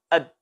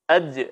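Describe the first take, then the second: First: The final consonant is held and cut off. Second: The final consonant is released with a bouncing echo. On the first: The speaker calls it wrong. "maka suara huruf ini tidak jelas" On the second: The speaker calls it right. "maka mesti dipantulkan"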